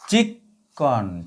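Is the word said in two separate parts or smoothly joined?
joined. The word is said smoothly as one unit.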